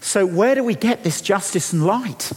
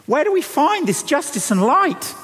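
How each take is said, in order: First: Said in the usual way. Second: Pitched well up, pressing the question home; high ringing question. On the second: Acted. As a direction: lift the whole line high and urge it. Preacher presses the question again.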